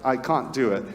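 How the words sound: It is said in an Australian accent. "When Australians say it, it sounds um, a little bit different"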